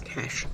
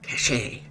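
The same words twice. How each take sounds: First: It is said as one syllable, like 'cash'. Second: It is said as two syllables, like 'cash-ay'. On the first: The speaker calls it right. "one of those people that pronounce the word C A C H E as cache" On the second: The speaker calls it wrong. "not cache, because cache is actually C A C H E T"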